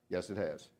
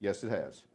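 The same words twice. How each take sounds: The two takes are said the same way.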